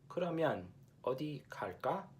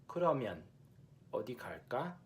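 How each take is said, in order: Both takes have the same delivery.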